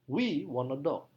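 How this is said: The strongest stress falls on we. It answers who wants a dog. "Penekanan paling kuat pada kata we"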